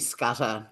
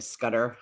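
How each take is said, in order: First: The name has a crisp Australian t sound. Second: The name has a soft American flapped t. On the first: This is how the name is really pronounced. The speaker calls it right. "It's actually Scudder, double T" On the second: This is how Americans pronounce the name. The speaker calls it wrong. "Americans say Scudder, stutter"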